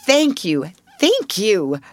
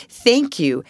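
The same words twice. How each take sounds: First: Each thank you more heartfelt; a grateful girl writing thanks; mounting thanks. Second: Earnest, warm thank you; a grateful girl writing thanks; heartfelt thanks. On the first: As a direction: thank rising higher with feeling. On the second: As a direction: pour gratitude into it. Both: A narrator's reading. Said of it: "Please let me say just these words".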